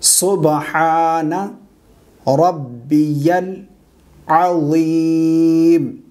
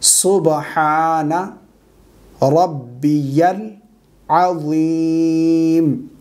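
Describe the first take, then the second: First: Each word is said separately with pauses. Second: Each word is said separately with pauses.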